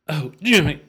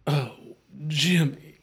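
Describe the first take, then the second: First: It is said very fast. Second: It is said at a moderate pace.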